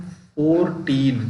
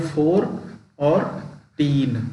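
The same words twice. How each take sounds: First: Said in the usual way. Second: फ़ोर्टीन parted into फ़ोर and टीन; फ़ोर and टीन as two separate beats; split into syllables. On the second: Shown as a demonstration. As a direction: say फ़ोर, pause, then टीन. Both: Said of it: "इस तरीके से बनता है दो syllable में".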